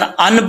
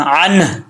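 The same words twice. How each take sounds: First: अन ending bluntly on n, no breath after; dropped हा. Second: अन with throaty ain and breathed h after the n; final हा kept. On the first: Teacher shows the mistake, final h lost. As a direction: say a plain अन without the final h. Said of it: "पढ़ेंगे तो हा ख़त्म हो जाएगी". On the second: Teacher corrects the dropped ending, careful recitation. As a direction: let a puff of h follow अन. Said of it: "last पे हा का sound आ रहा है". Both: Shown as a demonstration.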